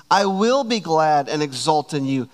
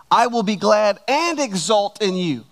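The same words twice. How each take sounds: First: Weight on "will", "and" passed over; emphatic praise. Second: Raised voice, punching "and"; extra emphasis. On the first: Preacher reading David's praise to the church, emphatic praise. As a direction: declare "I will be glad" in one steady flow. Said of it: "I want you to hear emphatic praise". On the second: Preacher stressing David's words for the church, extra emphatic "and". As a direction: hit "and" hard between "glad" and "exult". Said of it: "read those two verses again and extra emphasize". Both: Shown as a demonstration.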